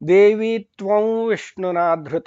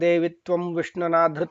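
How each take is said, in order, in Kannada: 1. ಈ ಅನುನಾಸಿಕ ಒಂದು ಅನುನಾಸಿಕ ಸ್ವರವಾಗಿದ್ದು v ಕಡೆ ಜಾರುತ್ತದೆ. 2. ಈ ಅನುನಾಸಿಕ ತುಟಿ ಮುಚ್ಚಿ ಉಚ್ಚರಿಸುವ ಪೂರ್ಣ m ಆಗಿದೆ. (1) "ವಾಸ್ತವವಾಗಿ ಅದು ಉಚ್ಚಾರಣೆ ಹೆಂಗೆ ಅಂದ್ರೆ" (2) "ಅಂತ ನಾವು ಏನು ಬೆಳಿಗ್ಗೆ ಬೆಳಿಗ್ಗೆ ಪ್ರಾರ್ಥನಾ ಶ್ಲೋಕದಲ್ಲಿ ಹೇಳ್ತೀವಿ"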